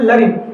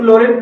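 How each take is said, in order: First: The first vowel sounds like 'uh'. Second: The first vowel sounds like 'o'. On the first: The speaker calls it right. "इसको पढ़ते हैं लरिन" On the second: The speaker calls it wrong. "इसको लोरेन नहीं बोलते"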